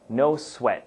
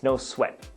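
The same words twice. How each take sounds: First: It is said carefully with the final T. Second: It is said quickly with the final T dropped.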